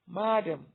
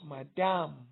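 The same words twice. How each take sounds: First: The stress is on the first syllable. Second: The stress is on the second syllable. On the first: The speaker calls it right. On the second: The speaker calls it wrong. "not madam"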